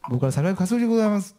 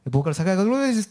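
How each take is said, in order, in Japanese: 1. ゆっくりはっきりと言っている。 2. 早口で、もごもごした感じで言っている。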